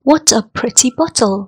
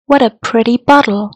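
First: It is said in a British accent. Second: It is said in an American accent. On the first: "Жишээ өгүүлбэрийг British аялгаар" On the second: "Америк аялгаар"

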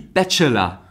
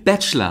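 First: The middle e vowel is pronounced. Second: The middle e vowel is dropped. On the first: The speaker calls it wrong. "Sie sprechen das eh mit" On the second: The speaker calls it right. "Wie sagt man als Profi?"

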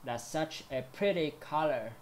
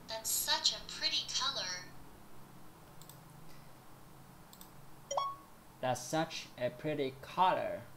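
First: The word pretty is said strongly. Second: The word pretty is said weakly. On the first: The speaker calls it right. "phải đọc mạnh hơn" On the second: The speaker calls it wrong. "mình nhấn âm sai từ pretty này"

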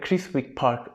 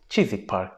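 First: The w in Chiswick is pronounced. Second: The w in Chiswick is silent. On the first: The speaker calls it wrong. "burada Chiswick Park denilmiyormuş" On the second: The speaker calls it right. "Chiswick Park deniliyormuş"

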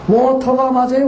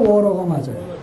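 First: The middle consonant is a clear t sound. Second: The middle consonant is a soft r-like flap.

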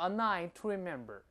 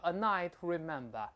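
First: It is said in an American accent. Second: It is said in a British accent. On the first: "美式叫" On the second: "翻译叫"

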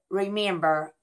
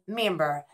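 First: The word is said fully with its first syllable. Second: The word is said without its first syllable. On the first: "we do not pronounce it remember" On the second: "We say member"

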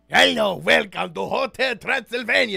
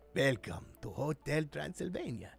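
First: It is said in a big, bombastic way. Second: It is said in a more toned-down way.

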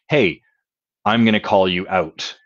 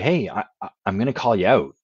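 First: The voice is flat and cold. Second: The voice is soft and warm. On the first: The words come across as plain text with no feeling. "Imagine I typed those words" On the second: The words come with care and love behind them. "the sound of love in my voice"

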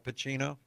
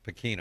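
First: The middle consonant is a 'ch' sound. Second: The middle consonant is a 'k' sound. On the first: "it's spelled like Pacino and Al Pacino" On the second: "But it's pronounced Pacino"

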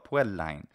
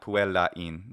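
First: The ending vowels merge into one syllable. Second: The ending vowels form two separate syllables. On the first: The speaker calls it right. "I prefer something in the middle" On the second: The speaker calls it wrong. "But it just needs to be one syllable, not puellain"

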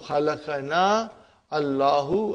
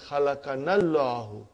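First: The two words are said separately. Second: The two words are run together as one.

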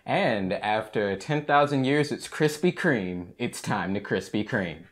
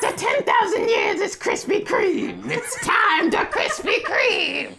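First: It is said in a normal voice. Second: It is said in a Rita impression voice.

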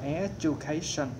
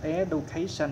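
First: The middle consonant sounds like a j. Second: The middle consonant sounds like a plain d. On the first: The speaker calls it right. "mà đọc là education. Education nó giống, nó giống như phát âm giống như là chữ G" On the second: The speaker calls it wrong. "đừng có đọc education"

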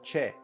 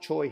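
First: The name is said with Korean pronunciation. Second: The name is said with American English pronunciation. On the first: This is how the name sounds in the original language. "it should be pronounced Che" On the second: This is how people in the States say the name. "they pronounce it Choi here"

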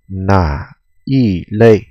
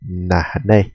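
First: All three syllables are pronounced in full. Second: The middle syllable is dropped, said quickly.

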